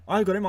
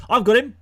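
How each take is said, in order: First: Said in the usual way. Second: Excited. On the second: Real, not acted. Excited about his own player.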